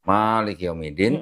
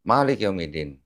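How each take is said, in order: First: The first vowel of Malik is long. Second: The first vowel of Malik is short.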